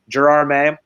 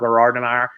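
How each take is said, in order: First: The name is pronounced the American way. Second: The name is pronounced the French way. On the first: "as Americans would say" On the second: "it's called"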